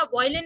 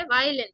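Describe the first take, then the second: First: Put-on "वायलिन" beginning boy; wrong pronunciation. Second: "वायलिन" with an open vai start; correct pronunciation. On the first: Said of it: "नहीं बोलते". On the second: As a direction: say "वायलिन" as vai-lin, pitch falling. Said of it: "वायलिन नहीं बोलते". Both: Shown as a demonstration.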